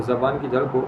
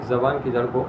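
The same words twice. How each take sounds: Both takes have the same delivery.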